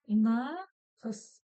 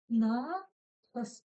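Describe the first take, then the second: The two takes are said the same way.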